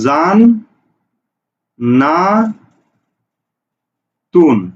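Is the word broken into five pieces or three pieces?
three pieces. The word is split into three syllable chunks. "এই জান্নাতুন শব্দকে তুমি কিভাবে উচ্চারণ করো?"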